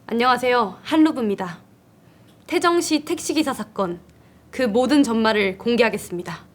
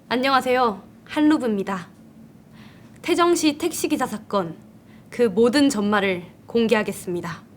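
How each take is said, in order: First: It is said at a faster pace. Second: It is said at a slower pace.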